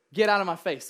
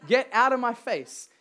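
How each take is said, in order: First: A louder laughing get out of my face; half-joking shout of Get out of my face; laughing command. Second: Firm command. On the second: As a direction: Get out of my face, louder and higher, no laugh. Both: Shown as a demonstration. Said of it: "we need to be a people that say".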